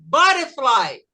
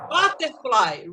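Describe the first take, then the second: First: It is said in an American accent. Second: It is said in a British accent.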